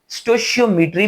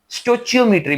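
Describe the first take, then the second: First: The middle sound is a soft sh. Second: The middle sound is a ch. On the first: "स्टोशियोमेट्री भी बोलते हैं" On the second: "स्टोचियोमेट्री भी बोलते हैं"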